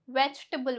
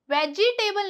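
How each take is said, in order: First: "वेजिटेबल" as vech-tebul, middle i dropped; "वेजिटेबल" softer, with ch straight into t; correct pronunciation. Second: "वेजिटेबल" as veji-table, four beats; "वेजिटेबल" split into veji and table; mispronunciation. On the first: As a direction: squeeze "वेजिटेबल" to three beats. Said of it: "वेजिटेबल बोलते हैं". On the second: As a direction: sound a full i after j in "वेजिटेबल". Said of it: "वेजिटेबल नहीं बोलते". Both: Shown as a demonstration.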